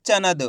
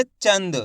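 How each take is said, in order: First: "चनद" in two beats, cha-nad, with a vowel after n; full n mispronunciation. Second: "चंद" with the n quick, straight into the d; quick half n. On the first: Teacher showing what not to say, full n in "चनद". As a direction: give "चनद" a full n instead of a nasal half n. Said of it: "आपको ऐसे नहीं पढ़ना". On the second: Teacher showing the right reading, quick half n in "चंद". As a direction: say "चंद" as one syllable, no vowel after n. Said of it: "तेजी के साथ निकलेगा". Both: Shown as a demonstration.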